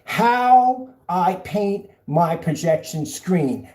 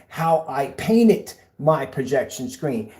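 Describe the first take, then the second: First: Slow, dragged mock reading of paint; mocking his title. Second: Painted stressed as the right form; slow, lower correction on painted; corrected reading. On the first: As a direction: read paint out slowly as the wrong word. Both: Shown as a demonstration. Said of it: "not paint".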